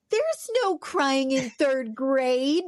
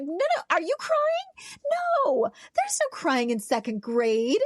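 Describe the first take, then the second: First: Slow, laughing mock coach line; playful teacher teasing a crying kid; joking coach quote. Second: High, slow teasing teacher voice; sing-song mock scolding, stretched out; teacher playfully scolding a crying second grader; mock coach. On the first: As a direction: drag it out slowly, chuckling through it. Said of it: "we would do it jokingly". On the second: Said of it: "we'd be like".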